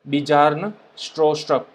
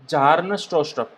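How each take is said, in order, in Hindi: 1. पहले नाम की शुरुआत B की आवाज़ से होती है। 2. पहले नाम की शुरुआत J की आवाज़ से होती है। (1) "इस तरह से इसको प्रोनाउंस किया जाता है" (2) "यहाँ पर आप बी को साइलेंट बोल सकते हो"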